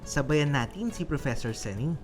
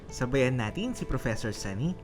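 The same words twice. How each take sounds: The two takes are said the same way.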